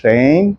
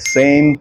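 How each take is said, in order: First: The word begins with an sh sound. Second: The word begins with a plain s sound. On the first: The speaker calls it right. "આ છે શેમ" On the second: The speaker calls it wrong. "આને સેમ, શૂઝ અને સી નથી કહેવાનું"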